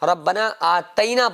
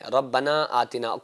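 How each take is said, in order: First: The second word has an 'ai' vowel after 't'. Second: The second word has a short 'i' after 't'. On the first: An extra letter changes the verse's wording. The speaker calls it wrong. "कुछ लोग गलती करते हैं। वो लोग क्या पढ़ते हैं? रब्बना आतैना पढ़ते हैं" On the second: The verse is recited as written. The speaker calls it right. "बल्कि रब्बना आतिना कहना है"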